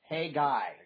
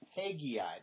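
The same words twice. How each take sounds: First: The ending is a single blended vowel sound. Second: The ending has an extra vowel sound added. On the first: The speaker calls it right. "but it's actually just Haggai" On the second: The speaker calls it wrong. "most people say it Haggai"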